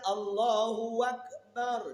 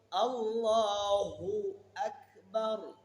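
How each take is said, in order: First: A 'w' sound is added before 'Akbar'. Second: No 'w' sound comes before 'Akbar'. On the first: God and the great one. The speaker calls it wrong. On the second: God is the greatest. The speaker calls it right.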